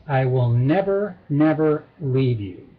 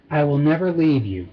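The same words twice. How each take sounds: First: NEVER said twice, deliberately, in low pitch; double emphasis. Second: Said in the usual way. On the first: Shown as a demonstration. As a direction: lean on each NEVER with a break between. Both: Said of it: "with a double emphasis".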